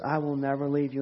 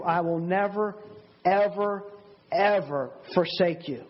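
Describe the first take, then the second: First: Said in the usual way. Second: Each "ever" set apart by a pause and punched; deliberate stress on "never", then on each repeated "ever"; very emphatic. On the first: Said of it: "it's more emphatic in the Greek". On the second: Acted. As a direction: hammer "ever, ever" one word at a time. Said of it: "he's very emphatic. He's saying".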